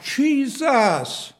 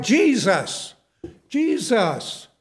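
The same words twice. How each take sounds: First: Higher-pitched, moderate mock scream; retold scream. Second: Mild imitated call for help; retold crying out. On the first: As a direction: imitate a desperate cry, pitched up. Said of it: "He was screaming it out". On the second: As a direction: call out to Jesus, half-strength. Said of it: "He cried".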